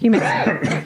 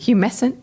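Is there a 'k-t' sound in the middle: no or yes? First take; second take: yes; no. First: The middle is said with a 'k-t' sound. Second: The middle is said with an 's' sound. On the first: The speaker calls it right. "Oh, there's a T in there" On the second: The speaker calls it wrong. "I like humescent better"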